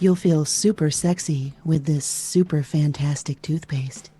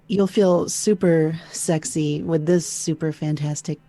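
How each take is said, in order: First: It is said softly and gently. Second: It is said as if hating the listener.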